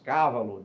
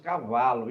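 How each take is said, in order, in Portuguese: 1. A sílaba tônica é a primeira. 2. A sílaba tônica é a segunda. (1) "Nós não dizemos cávalo" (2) "Nós tendemos ao paroxítono"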